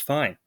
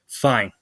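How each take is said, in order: First: The word is said in an easy, content tone. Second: The word is said in an upset, strained tone. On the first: Things really are fine. "that's usually the end of the conversation. You know, they're having a good day" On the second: Something is actually wrong. "like that, and it's their tone"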